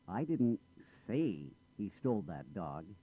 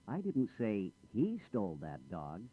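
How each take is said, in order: First: The stress falls on the word say. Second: The stress falls on the word he. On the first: It was implied rather than said. "I didn't say it. I might have implied it" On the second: A different person did it. "I didn't say he did it. I said she or someone else"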